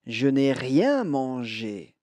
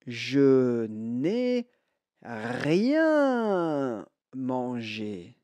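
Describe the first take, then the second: First: Said in the usual way. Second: Very slow, drawn-out model phrase; slow model sentence. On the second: Shown as a demonstration. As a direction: stretch each word out for learners to repeat. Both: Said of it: "écoutez bien et répétez".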